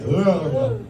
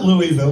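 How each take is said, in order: First: The name is slurred together, like a drunk person. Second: The name is said fully, with every syllable clear. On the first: The speaker calls it right. "You gotta be drunk to say it right" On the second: The speaker calls it wrong. "It's not Louisville"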